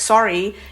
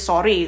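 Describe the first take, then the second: First: It is said with an English accent. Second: It is said with an Indonesian accent.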